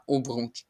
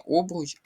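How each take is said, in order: First: Обруч said as об-РУЧ, last syllable stressed; second-syllable stress. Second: Обруч said as ОБ-руч, first syllable stressed; wrong first-syllable stress. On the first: Teacher giving the correct form, обруч stressed on the second syllable. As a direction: move the stress to the end of обруч. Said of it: "Наголос на другий склад". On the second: Teacher pointing out the error, обруч stressed on the first syllable. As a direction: put the mistaken stress on the start of обруч. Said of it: "тут буде помилка". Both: Shown as a demonstration.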